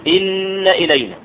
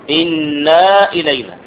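First: إن with a doubled nun, short fatha, no long aa; إن kept short and open; correct reading. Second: إنا slowed, the fatha stretched into a long aa; wrong reading. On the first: Teacher answering his own question, إن short. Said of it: "فالصواب أن تقول إيه". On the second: Teacher showing students the mistake, إنا slow with long aa. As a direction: drag إنا out as inaa. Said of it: "والخطأ أن تقول". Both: Shown as a demonstration.

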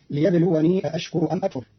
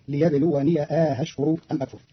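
First: Said in the usual way. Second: أأشكر with long a gliding into softened hamza; eased second hamza. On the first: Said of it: "قرأ قالون كلمتي ليبلوني أأشكر". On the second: Shown as a demonstration. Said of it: "مع تسهيل الهمزة الثانية".

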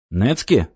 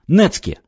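First: Said in the usual way. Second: «Нецке!» выкрикнуто выше; взорваться на слове «Нецке!»; возмущённое «Нецке!». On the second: A narrator's reading. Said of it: "а потом заорал". (возмущённо выкрикнутое «Нецке!»)

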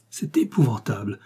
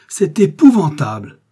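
First: Hushed, breath-filled horror; horrified. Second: Loud, high, drawn-out exclamation; horrified cry. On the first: Brothers learning the bandit is their brother, hushed horror. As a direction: let it out half-whispered, appalled. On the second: Brothers learning the bandit is their brother, loud horror. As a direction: cry it out slowly, appalled. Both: A narrator's reading. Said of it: "Robert et Raoul s'écrièrent".

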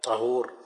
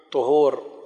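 First: طهور said "ṭahūr", with a after the ط; fatha on the ṭā'. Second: طهور said "ṭuhūr", with u after the ط; damma on the ṭā'. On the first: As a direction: give طهور an open short a in its first syllable: ṭa-hūr. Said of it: "وفتحها". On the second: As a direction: give طهور a short u in its first syllable: ṭu-hūr. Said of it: "بضم الطاء". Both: Shown as a demonstration.

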